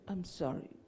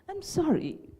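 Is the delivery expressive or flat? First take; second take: flat; expressive. First: It is said flatly, without feeling. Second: It is said expressively, with feeling. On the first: The speaker calls it wrong. "Is it interesting? No" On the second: The speaker calls it right. "How is it?"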